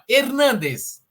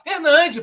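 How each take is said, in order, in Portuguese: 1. O nome é falado do jeito espanhol. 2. O nome é falado do jeito brasileiro carioca. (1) "ele pega os nomes ali, tipo assim, ó" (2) "a gente aqui é brasileiro, carioca"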